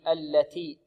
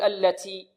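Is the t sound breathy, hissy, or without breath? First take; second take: breathy; hissy. First: The t has light breath and no hiss. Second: The t has heavy breath with an s-like hiss. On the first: The speaker calls it right. "بالتاء مهموسة بدون رائحة السين هكذا" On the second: The speaker calls it wrong. "يبالغون في الهمس"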